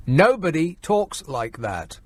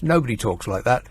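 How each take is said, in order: First: "Nobody talks like that" slowed right down, word by word; slow emphatic repeat. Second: Said in the usual way. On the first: Real, not acted. Host scoffing at a politician's posh accent, "Nobody talks like that" slow and emphatic. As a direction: draw out "Nobody" and lean on "talks".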